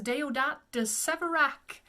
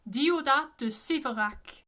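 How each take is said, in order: First: English-style Deodat de Séverac, "day-oh-dat"; anglicized pronunciation. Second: French Deodat de Séverac, silent final t; emphatic French Deodat de Séverac; French pronunciation. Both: Shown as a demonstration. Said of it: "The way you say this one is".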